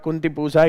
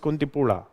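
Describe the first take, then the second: First: The name is said with a z sound. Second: The name is said with an l sound. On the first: The speaker calls it wrong. "you don't say Z" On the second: The speaker calls it right. "you say La"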